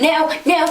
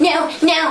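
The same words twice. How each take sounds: Both takes have the same delivery.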